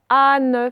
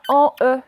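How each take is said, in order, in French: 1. Une voyelle orale, puis un son N final. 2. Une voyelle nasale, puis un E final séparé. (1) "ça faisait ane" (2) "ça faisait pas en E"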